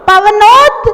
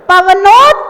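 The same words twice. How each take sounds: Both takes have the same delivery.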